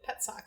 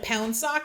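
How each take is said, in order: First: The first vowel is plain, as in 'pet'. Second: The first vowel is nasal, with an 'n'-like sound. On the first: This is the everyday English way of saying the name. "like a pet and a sock" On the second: This is the original Polish way of saying the name. "in Polish"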